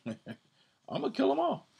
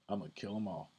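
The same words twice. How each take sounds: First: Squeaky high, louder, laughing through it; mock wrathful God. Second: Said in the usual way. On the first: The Most High threatening his people, hammed-up high laughing voice. Paraphrasing the Most High's anger.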